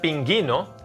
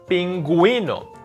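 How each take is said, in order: First: The u after the g is silent. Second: The u after the g is pronounced. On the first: The speaker calls it wrong. "It's not pinguino" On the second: The speaker calls it right. "We have to pronounce the U"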